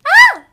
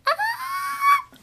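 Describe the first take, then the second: First: Loud, high scream; full scream. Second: Cracking, failed high scream; voice giving out. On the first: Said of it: "How do I do my scream?". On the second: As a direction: try to scream but the voice breaks. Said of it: "watch, listen to me try to scream". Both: Shown as a demonstration.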